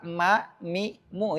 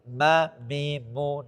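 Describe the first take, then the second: First: The nasal hum resonates freely and openly. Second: The nasal hum sounds blocked and muffled. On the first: The speaker calls it right. "kalau dibuka ma mi mu itu baru enak" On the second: The speaker calls it wrong. "kalau kita tutup makhrajnya bunyinya tidak bagus"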